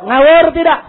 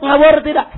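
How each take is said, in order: First: Louder repeated demand; rallying shout. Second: Said in the usual way. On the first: Real, not acted. Preacher asks if the decree is nonsense, rallying shout. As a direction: push the crowd for an answer.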